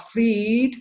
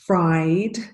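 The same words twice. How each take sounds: First: The vowel sounds like 'ee'. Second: The vowel sounds like 'eye'. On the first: The speaker calls it wrong. "a tendency to pronounce this as E" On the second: The speaker calls it right. "the sound is I"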